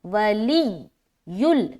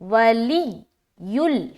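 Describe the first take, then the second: Both takes have the same delivery.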